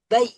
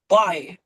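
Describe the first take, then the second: First: The glide is said very softly and smoothly. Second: The glide is said harshly, without softness. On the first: The speaker calls it right. "Tapi bai" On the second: The speaker calls it wrong. "Enggak bai gitu"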